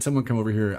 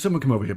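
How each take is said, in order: First: It is spoken in an American accent. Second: It is spoken in a British accent. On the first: The speaker calls it wrong. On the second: The speaker calls it right.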